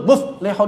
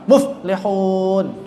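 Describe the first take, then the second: First: The word is said with an abrupt, jerky stop. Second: The word is said smoothly, without a jerky stop. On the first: The speaker calls it wrong. "ini banyak baca menghentak" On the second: The speaker calls it right.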